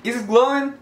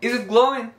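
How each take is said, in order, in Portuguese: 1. 'is it' é falado ligado, como se fosse uma palavra só. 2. 'is it' é falado ligado, como se fosse uma palavra só.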